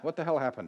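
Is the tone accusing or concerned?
concerned. It sounds worried and supportive. The speaker is focused on the task and offering help. The speaker calls it right. "How can I help?"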